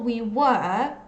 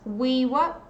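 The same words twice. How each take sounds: First: 'Were' is said with a full vowel. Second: 'Were' is said with a weak schwa. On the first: The speaker calls it wrong. "so it's not we were" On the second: The speaker calls it right. "it's we were"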